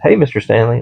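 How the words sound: It is said in a cheerful, friendly tone.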